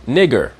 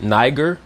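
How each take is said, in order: First: "nigger" with front I in place of eye; Latin-style vowel. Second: "niger" drawn out with an eye vowel; mispronounced long I. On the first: Teacher applies Latin vowels to scripture, "nigger" without long I. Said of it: "will be pronounced". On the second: Teacher shows the common misreading, "niger" with long I. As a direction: slowly say "niger," first syllable like "nigh". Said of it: "as we mispronounce it". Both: Shown as a demonstration.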